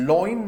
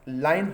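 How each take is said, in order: First: लॉइन said with a rounded "aw" vowel, law-in; wrong lion pronunciation. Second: लाइन said with the "ai" vowel of "line"; "लाइन" rhyming with "fine", ai-un; correct lion pronunciation. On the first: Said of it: "लॉइन नहीं होता है". ("लॉइन" गलत उच्चारण, ऑ की ध्वनि के साथ) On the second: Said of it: "लाइन होता है". ("लाइन" सही उच्चारण, आइ की ध्वनि के साथ) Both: Shown as a demonstration.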